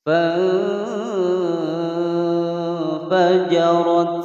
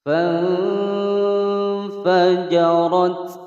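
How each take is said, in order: The two takes are said the same way.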